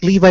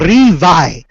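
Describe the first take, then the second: First: The name begins with an L sound. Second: The name begins with an R sound.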